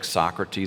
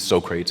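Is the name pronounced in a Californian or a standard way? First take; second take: standard; Californian. First: The name is pronounced in the standard way. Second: The name is pronounced in a Californian way.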